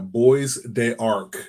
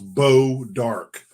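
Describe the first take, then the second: First: The name is sounded out as Boys de Arc. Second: The name is said as two syllables, Bow Dark. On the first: This is how the name is written. "is what it's spelled" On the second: This is how the name is actually said. "it's pronounced Bow Dark"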